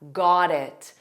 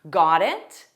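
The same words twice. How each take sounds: First: The pitch falls at the end. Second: The pitch rises at the end. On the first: Confirming that the instruction is understood. "A falling intonation to accept that" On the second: Asking whether the other person understood. "she adds it as a question, so a rising intonation"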